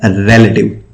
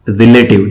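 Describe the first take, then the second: First: रिलेटिव with a clear RE stressed first; रिलेटिव stressed on the first syllable; correct pronunciation. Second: रिलेटिव with a short ri in the first syllable; रिलेटिव the common Indian way; wrong pronunciation. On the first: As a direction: say रिलेटिव as REL-uh-tiv. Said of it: "actual pronunciation क्या है". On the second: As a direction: say रिलेटिव as ri-LAY-tiv. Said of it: "हम बोलते हैं". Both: Shown as a demonstration.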